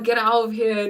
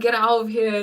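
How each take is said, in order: First: It sounds like playful, amazed disbelief. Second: The same.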